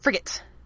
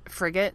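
First: The final T is hit hard and crisp. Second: The final T is soft and light.

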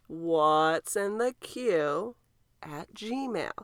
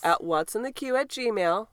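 First: It is said slowly. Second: It is said at normal speed.

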